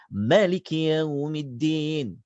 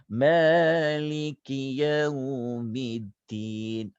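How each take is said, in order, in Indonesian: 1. Vokal pertama dibaca pendek dan cepat. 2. Vokal pertama dibaca panjang. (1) "dia baca laju" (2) "kita baca panjang ma tu"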